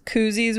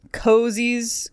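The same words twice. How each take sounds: First: "koozies" said with an oo sound; "koozies" rhyming with floozies; "koozies", first vowel as in goose. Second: "cozies" said with a long o, like cozy; "cozies" rhyming with rosy. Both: Shown as a demonstration. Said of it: "whatever you wanna call 'em".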